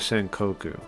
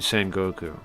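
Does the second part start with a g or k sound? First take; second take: k; g. First: The second part begins with an unvoiced k sound. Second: The second part begins with a voiced g sound. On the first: The speaker calls it wrong. "instead of Senkoku" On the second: The speaker calls it right. "it changes to go"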